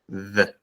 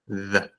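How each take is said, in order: First: It begins with a voiced th sound. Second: It begins with a voiced th sound.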